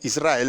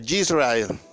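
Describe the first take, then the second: First: The name begins with a plain vowel sound. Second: The name begins with a y sound. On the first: The name as it is usually said. "en vez de decirme Israel" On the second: The name as a foreign friend said it. "me lo pronunciaba en su, en su idioma y suena diferente"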